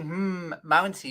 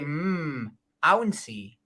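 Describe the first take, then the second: First: The second word begins with an m sound. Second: The second word begins with a vowel sound. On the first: The speaker calls it wrong. "You're saying hmm, mouncy. You, you you shouldn't say the m" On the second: The speaker calls it right. "You should say hmm, ouncy"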